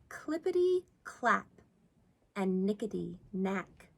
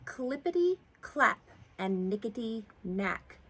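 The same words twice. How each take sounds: First: The line is read at a slower pace. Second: The line is read at a faster pace.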